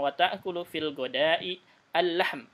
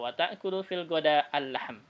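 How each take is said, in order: First: The case ending after ghada is pronounced. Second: The case ending after ghada is dropped.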